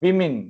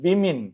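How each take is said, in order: Both takes have the same delivery.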